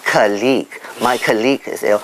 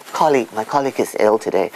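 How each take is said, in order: First: "colleague" with the stress shifted to the second syllable. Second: "colleague" stressed on the first syllable. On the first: Speaker shows the Singaporean mistake, "colleague" stressed on second syllable. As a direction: say "colleague" as cuh-LEAGUE. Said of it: "put the stress on the second syllable". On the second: Speaker models correct usage, stressing the first syllable of "colleague". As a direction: say "colleague" as COL-league. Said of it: "the stress is on the first syllable". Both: Shown as a demonstration.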